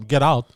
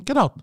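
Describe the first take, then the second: First: Said in the usual way. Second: Higher get out. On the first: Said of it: "Like, I'll tell them". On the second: Retold or imitated. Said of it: "I'll dash out and tell him".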